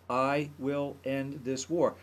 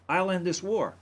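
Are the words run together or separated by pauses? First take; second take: separated; run together. First: The words are separated by short pauses. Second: The words run together without any pauses. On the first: The speaker calls it right. "he said each word separately like that, with a little bit of a pause between" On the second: The speaker calls it wrong. "Not I'll end this war"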